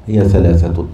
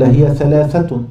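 First: Said in the usual way. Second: "هي" lifted high as a quoted rule, then falling; reading the rule aloud. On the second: Shown as a demonstration. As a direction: read "هي ثلاثة" out like a quoted text line. (قراءة "هي ثلاثة" كنص مقتبس بنبرة مرتفعة)

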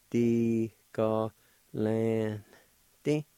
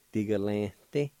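First: "Di, ga, lan, di" broken into held syllables; syllable-by-syllable demo. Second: "Di, ga, lan, di" run together as one word; connected take of "Di, ga, lan, di"; joined-up pronunciation. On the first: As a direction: sound out "Di, ga, lan, di" piece by piece. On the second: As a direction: blend "Di, ga, lan, di" smoothly. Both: Shown as a demonstration. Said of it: "like this".

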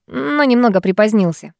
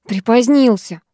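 First: Said in the usual way. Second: Насмешливо передразни «Припозднился»; фыркни, повторяя его «Припозднился»; фыркнув. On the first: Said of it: "«Припозднился», фыркнула я". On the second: Acted. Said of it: "фыркнула я". (насмешливое «Припозднился» с фырканьем)

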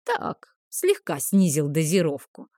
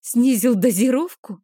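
First: Casual, understated confession; sly wink. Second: Higher, indignant questioning echo; raised pitch, shocked question; incredulous echo. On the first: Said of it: "подмигнул он мне". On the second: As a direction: throw the words back in disbelief. Heroine echoes him in disbelief. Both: A narrator's reading.

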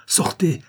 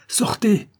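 First: Raised order, rising at the end; first warning to get out; firm order. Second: Much higher, shouted order; angry shout. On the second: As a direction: lose patience and shout. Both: Acted. Adeline orders the visitor out.

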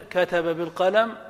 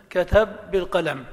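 First: "كتب بالقلم" with both ba sounds said apart, kataba bilqalam; separated ba. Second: "كتب بالقلم" as katabbilqalam, one doubled ba; merged ba. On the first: Teacher showing the class the unmerged "كتب بالقلم". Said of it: "لك أن تظهر". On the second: Teacher showing the class the merged "كتب بالقلم". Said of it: "ولك أن تدغم". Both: Shown as a demonstration.

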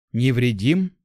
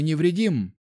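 First: "Невредим" thrown back with a rising end; incredulous echo. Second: Said in the usual way. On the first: A narrator's reading. Young hunter disputes being unharmed, "Невредим" rising incredulously. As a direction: repeat "Невредим" as a disbelieving question, pitch climbing. Young man echoes in disbelief.

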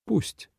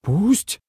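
First: Soft, unruffled acceptance; calm. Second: High rising incredulous echo; shocked. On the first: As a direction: accept it quietly, without a fight. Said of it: "спокойно сказал Ван Джун Син". (спокойно, негромко) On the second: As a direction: repeat it stunned, pitch shooting up. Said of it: "потрясённо повторил Минлу". (потрясённо) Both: A narrator's reading.

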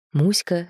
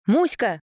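First: Said in the usual way. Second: Raised calling voice. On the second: A narrator's reading. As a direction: call the dog's name brightly. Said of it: "позвал он".

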